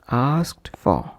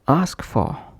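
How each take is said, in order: First: The t sound before for is pronounced. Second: The t sound before for is dropped.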